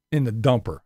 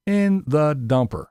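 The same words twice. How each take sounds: First: Said in the usual way. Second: "In the dumper" said slowly, each word leaned on; slow stressed repeat. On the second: Shown as a demonstration. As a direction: drag out "In the dumper" for emphasis.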